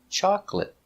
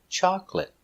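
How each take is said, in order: Both takes have the same delivery.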